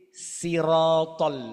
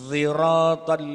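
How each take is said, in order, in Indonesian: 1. Diawali dengan bunyi s yang ringan. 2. Diawali dengan bunyi di antara s dan z. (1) "ada bacaan kedua ya pakai sin" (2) "yang ketiga antara sin dengan dha"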